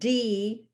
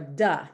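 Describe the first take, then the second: First: The letter is said as its alphabet name. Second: The letter is said as its sound in words. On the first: "is the letter name" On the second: "These sounds are duh"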